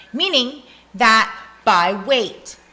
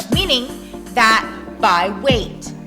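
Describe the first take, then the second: The two takes are said the same way.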